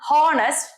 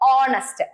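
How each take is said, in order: First: The word begins with an audible h sound. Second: The word begins with a vowel, no h. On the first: The speaker calls it wrong. "it is not honest" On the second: The speaker calls it right. "it is honest so h എന്ന് പറയുന്ന സാധനം ഇവിടെ silent ആണ്"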